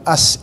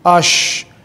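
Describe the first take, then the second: First: The consonant is a narrow hissing s. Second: The consonant is a spread hushing sh. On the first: The speaker calls it wrong. "bukan as" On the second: The speaker calls it right. "tapi ash ... Jadi harus melebar"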